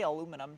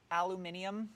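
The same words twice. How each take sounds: First: Aluminum said the American way, a-LOO-mi-num; aluminum with four syllables; American pronunciation. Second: Aluminium said the British way, al-yoo-MIN-ee-um; aluminium with five syllables; British pronunciation. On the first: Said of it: "I can say aluminum too". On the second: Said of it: "You like how I say aluminium?". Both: Shown as a demonstration.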